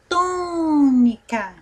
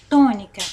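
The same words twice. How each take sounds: First: High, long-held TÔ in "tônica"; stretched TÔ. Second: Said in the usual way. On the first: Shown as a demonstration. Teacher shows we linger on the accented syllable, TÔ stretched. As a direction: draw out the first syllable of "tônica". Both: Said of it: "Nós ficamos mais tempo falando".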